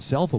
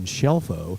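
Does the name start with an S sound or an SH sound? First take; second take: S; SH. First: The name starts with an s sound. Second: The name starts with an sh sound. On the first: This is how the player says his own name. "I think you said Selfo" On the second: This is how the grandmother says the name. "She said the pronunciation Shelfo"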